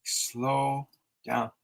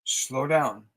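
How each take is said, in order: First: Stretched out, much slower and softer; slowly and softly. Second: Said in the usual way. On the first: Shown as a demonstration. Psychic showing a viewer how to slow down, slowly. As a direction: ease the words out to show slowing. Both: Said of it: "Slow down, you move too fast".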